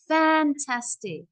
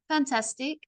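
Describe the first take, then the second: First: It is lifted softly at the start, then stretched. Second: It is said flatly with no energy. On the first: The speaker sounds genuinely passionate. The speaker calls it right. "I got to kind of do it soft" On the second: The speaker does not sound excited. The speaker calls it wrong. "You can tell from my voice there's no energy"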